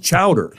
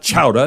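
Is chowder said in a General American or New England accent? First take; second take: General American; New England. First: It is said with a General American accent. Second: It is said with a New England accent. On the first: The speaker calls it right. "It's chowder" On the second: The speaker calls it wrong. "It's not chowder"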